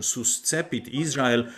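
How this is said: The Latin is pronounced in a German style.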